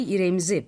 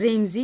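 First: The word starts with an added i sound. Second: The word starts directly with the r sound.

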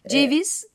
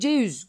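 First: The v sound in the middle is kept. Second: The v sound in the middle is dropped. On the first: This is the standard form. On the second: This is the local dialect form.

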